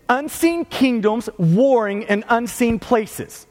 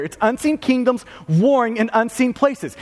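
First: "unseen kingdoms warring in unseen places" slowly, "unseen" stressed both times; slow defining statement. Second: Said in the usual way. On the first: Real, not acted. Preacher giving his congregation a definition, slow and stressed. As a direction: lay out the definition word by word, leaning on "unseen". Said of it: "give you a quick definition". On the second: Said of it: "this is the idea of spiritual warfare".

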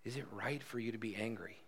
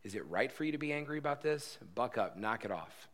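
First: Soft, gentle asking; quiet, caring question to a hurting friend; tender question. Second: Harsh correcting tone, telling him to knock it off; stern scolding. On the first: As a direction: ask it softly, in love. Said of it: "But this is a tender question". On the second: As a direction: snap at Jonah like a stern parent. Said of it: "God just correcting and spanking". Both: Shown as a demonstration.

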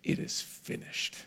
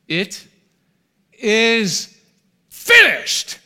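First: A breathless whisper, barely there. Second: Building to a huge, high, full-voiced cry; triumphant shout. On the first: Acted. Preacher voicing dying Jesus on the cross, whispered. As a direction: let the last words escape as a whisper. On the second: Preacher proclaiming Jesus's final cry to the congregation, shouted. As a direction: roar it out as a victory cry, rising word by word. Jesus's last words on cross.

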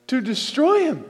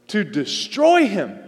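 First: To destroy him again, pitched higher with destroy falling hard; raised insistent repeat; higher urgent repeat. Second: To destroy him, with destroy drawn out slowly; slow weighted destroy; slow stress on destroy. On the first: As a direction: lift the pitch and drive destroy down. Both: Shown as a demonstration.

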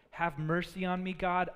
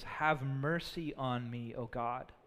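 First: Said in the usual way. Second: Soft, slow, lowered plea for mercy; hushed reverent prayer; humble plea. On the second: Shown as a demonstration. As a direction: pray it gently, like a broken man. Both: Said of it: "You know what David doesn't say?".

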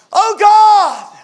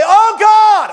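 First: "Oh God" shouted high and loud in anguish; grieving father shouting to God over his son; crying out to God. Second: High loud anguished cry, "Oh God" flung upward; father in the delivery room crying out to God, full shout. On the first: Retold or imitated. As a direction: lift your voice, cry out to heaven. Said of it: "lifted my voice and say". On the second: Shown as a demonstration. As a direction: lift your voice and cry "Oh God!". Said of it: "I mean, like that".

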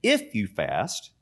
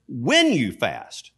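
First: IF set out slowly, as the rejected wording; slow, pointed "If" at the start; stress on IF. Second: Slow, emphatic "When" with a steep drop after it; stress on WHEN. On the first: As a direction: lean on "If", drawn out and soft, then "you fast". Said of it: "he doesn't say". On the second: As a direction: hit "When" hard and slowly, correcting the wording. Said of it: "He says". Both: Retold or imitated.

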